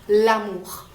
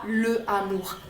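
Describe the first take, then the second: First: The article's vowel is dropped and linked. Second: The article's vowel is fully pronounced. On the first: The speaker calls it right. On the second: The speaker calls it wrong.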